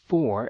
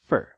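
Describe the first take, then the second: First: The word is said with its full vowel. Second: The word is said with a weak, reduced vowel. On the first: "A palavra for" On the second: "é reduzida para for"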